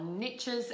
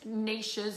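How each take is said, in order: First: It uses the American pronunciation of the word. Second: It uses a non-American pronunciation of the word.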